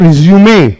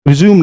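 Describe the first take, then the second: First: The word ends with an 'ay' vowel sound. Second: The word ends on the 'm' consonant. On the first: The speaker calls it right. "Word है रिज्यूमे" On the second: The speaker calls it wrong. "रिज्यूम नहीं"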